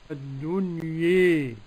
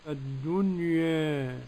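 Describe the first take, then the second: First: The final vowel is bent strongly toward 'e'. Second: The final vowel is bent slightly toward 'e'. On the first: "بالإمالة قولا واحدا. ... كيف يكون النطق" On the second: "والتقليل كيف يكون"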